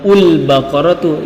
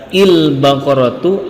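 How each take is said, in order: First: The word begins with a u vowel. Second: The word begins with an i vowel. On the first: "atau ul-baqaratu" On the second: "tidak boleh dibaca il-baqaratu"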